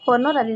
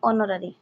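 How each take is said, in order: First: The word begins with an h sound. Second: The word begins with a vowel sound. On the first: The speaker calls it wrong. "हनरारी नुहे" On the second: The speaker calls it right. "उच्चारण"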